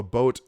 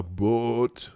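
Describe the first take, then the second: First: Said in the usual way. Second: "boat" with a long, drawn-out Minnesotan O. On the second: Shown as a demonstration. Host mimicking local speech, "boat" with stretched regional O. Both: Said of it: "They call a boat a boat".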